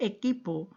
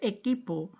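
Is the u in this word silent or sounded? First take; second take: silent; silent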